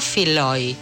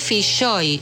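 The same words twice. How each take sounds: First: The surname is pronounced the Irish way. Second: The surname is pronounced the Galician way. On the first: The speaker calls it wrong. "no Filloy" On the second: The speaker calls it right. "se dice Filloy"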